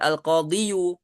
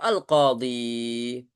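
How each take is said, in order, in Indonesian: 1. Kata ini berakhir dengan suku kata 'yu' yang ditambahkan. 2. Kata ini berakhir pada vokal 'ee' biasa. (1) "Nggak bisa kita katakan al-qadhiyu" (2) "Tetap al-qadhi"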